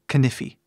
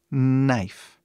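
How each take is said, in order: First: The word begins with a sounded K. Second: The word begins with an N sound. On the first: The speaker calls it wrong. "ou pior" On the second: The speaker calls it right. "a pronúncia começa com N"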